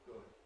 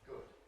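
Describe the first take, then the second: Both takes have the same delivery.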